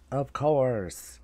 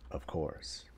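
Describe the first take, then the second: First: "Of course" pitched up and drawn out; emphatic repeat. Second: Low, very soft aside; muted resignation. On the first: Pretend. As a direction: stretch "course" higher with a falling end. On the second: Real, not acted. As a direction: say it under your breath. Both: Repeats phrase, first low then emphatic.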